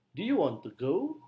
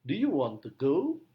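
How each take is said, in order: First: You and go lifted, rising end; stress on you and go. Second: Louder, you and go stressed; repeated demo, you and go stressed. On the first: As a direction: tip up you and go. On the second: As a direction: lean on you and go. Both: Shown as a demonstration. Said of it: "penekanannya pada you dan go".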